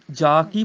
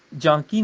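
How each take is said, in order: First: ਜਾ ਕੀ with pure aa; correct oral vowel. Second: ਜਾਂ ਕੀ with nasalised aa; wrong nasal shown. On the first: Teacher telling students how to say it, un-nasal ਜਾ. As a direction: keep ਜਾ free of nasality. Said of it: "ਬੋਲਣਾ". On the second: Teacher showing what to avoid, nasal ਜਾਂ. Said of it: "ਜਾਂ ਕੀ ਨਹੀਂ". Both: Shown as a demonstration.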